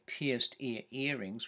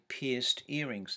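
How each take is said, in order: First: The repeated ear sound is pronounced twice. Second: The repeated ear sound is pronounced once. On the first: "we don't say pierced ear earrings" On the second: "we say pierced earrings"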